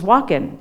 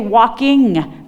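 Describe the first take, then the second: First: The word ends with an 'in' sound. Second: The word ends with an 'ing' sound. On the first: "the original form ... was actually in, not ing" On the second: "is standard"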